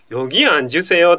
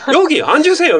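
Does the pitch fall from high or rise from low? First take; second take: rises; falls. First: The pitch starts low and rises. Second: The pitch starts high and falls. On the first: It sounds polite and natural. The speaker calls it right. "下から上がってかなきゃなんないんだ" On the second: It sounds like picking a fight. The speaker calls it wrong. "みたいなのは、まずいんで"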